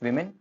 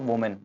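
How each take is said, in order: First: The first syllable sounds like 'wi'. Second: The first syllable sounds like 'wo'. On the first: The speaker calls it right. "It's वेमेन" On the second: The speaker calls it wrong. "It's not वोमेन"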